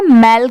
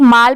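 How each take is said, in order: First: "मैल" with a front ae vowel; correct pronunciation. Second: "माल" with a long open aa; common misreading. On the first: Teacher giving learners the sound in animals, front-vowel "मैल". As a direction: say "मैल" with an ae, not aa. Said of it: "यहाँ पर इसकी sound क्या है?". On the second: Teacher showing how many people misread m-a-l, long-aa "माल". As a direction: say "माल" with the vowel aa. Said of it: "बहुत सारे लोग माल पढ़ते हैं". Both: Shown as a demonstration.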